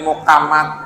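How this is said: The middle consonant is a k sound.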